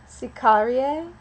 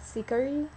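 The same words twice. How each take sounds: First: Sicarie with a drawn-out final ee-ay ending; tentative, stretched Latin Sicarie; first pronunciation. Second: Sicari ending on a simple ee; tentative second guess at sicari; alternative pronunciation. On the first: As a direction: say Sicarie slowly and loudly, four syllables. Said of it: "or maybe it's sicari". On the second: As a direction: try sicari softer, three syllables. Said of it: "or maybe it's". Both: Shown as a demonstration.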